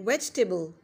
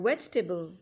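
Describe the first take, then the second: No difference in how they are said.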